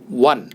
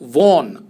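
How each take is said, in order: First: The word sounds exactly like 'one'. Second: The vowel sounds like the 'o' in 'on'. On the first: The speaker calls it right. "सही उच्चारण है वन, जैसे number वन होता है" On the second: The speaker calls it wrong. "कुछ लोग वन को वॉन pronounce करते हैं, जो गलत उच्चारण है"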